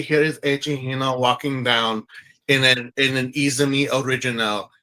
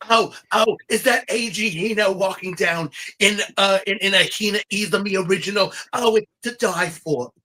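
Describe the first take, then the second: First: A hint of a French accent, lower and more even; light French-accent runway commentary; Frenchman voice. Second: A light, raised gossipy red-carpet voice; lightly voiced Joan Rivers, gushing over the runway look. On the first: Host redoing the runway line in a French accent. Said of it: "I could talk like the Frenchman". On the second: Podcast host doing Joan Rivers for his cohost, lightly raised and gushing. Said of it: "let me try to do my best Joan Rivers".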